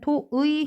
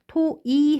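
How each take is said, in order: First: The last vowel is the glide 'ui'. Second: The last vowel is a plain 'i'. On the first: "토의 해도 되고요" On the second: "토이 해도 된답니다"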